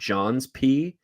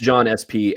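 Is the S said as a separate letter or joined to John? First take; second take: joined; separate. First: The S is joined onto John as possessive. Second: The S is spoken as a separate letter. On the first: "and not John's P" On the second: "it's John S P"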